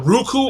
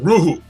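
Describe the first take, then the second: First: A k sound is heard in the middle. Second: No k sound is heard in the middle. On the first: The speaker calls it wrong. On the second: The speaker calls it right.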